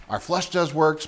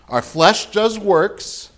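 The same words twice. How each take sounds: First: Said in the usual way. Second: Preacher hammering the point home, slow; slow emphatic. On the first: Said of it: "repeated plainly". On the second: Shown as a demonstration. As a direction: stress on "does", drawn out slow. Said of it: "repeated for emphasis".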